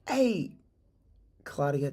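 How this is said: The greeting sounds hesitant, curious and concerned. The caller is genuinely interested in the person's situation. The speaker calls it right. "We use curious tonality"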